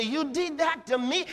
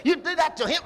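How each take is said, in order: First: "me" hit higher at the end; stress on me. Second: "him" said louder and higher as the wrong version; stress on him. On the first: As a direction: lean on the word "me" as the injured one. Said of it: "No, me". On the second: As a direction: push the word "him" hard. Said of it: "He doesn't say". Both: Shown as a demonstration.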